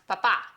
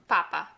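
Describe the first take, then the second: First: The stress is on the last syllable. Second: The stress is on the first syllable. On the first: "which has an accent on the final letter, the stress is indicated by that accent" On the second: "the penultimate pa will be the one that we place the emphasis on"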